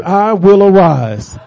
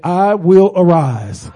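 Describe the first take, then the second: First: Slow, drawn-out, firm declaration; with conviction. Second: Said in the usual way. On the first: Shown as a demonstration. Preacher leads the congregation in declaring they will arise, with conviction. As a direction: declare it slowly with more force. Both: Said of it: "say it with some conviction".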